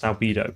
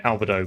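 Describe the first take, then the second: First: Albedo as al-BEE-doh; standard pronunciation. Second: Albedo as AL-buh-doh; deliberate mispronunciation. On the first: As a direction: say albedo with a long "ee" in the middle. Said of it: "I believe it's pronounced albedo". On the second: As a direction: say albedo with a weak "buh" instead of "bee". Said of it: "humor in mispronouncing things". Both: Shown as a demonstration.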